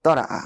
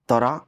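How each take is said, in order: First: Tara' with the glottal stop sounded; hamza stop. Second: ترا with a long open alif, no stop; ترا said smoothly, vowel held; plain alif. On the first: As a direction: snap ترأ shut with a clear hamza. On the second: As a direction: tara with a plain stretched alif. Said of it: "تو یہ رہا". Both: Shown as a demonstration.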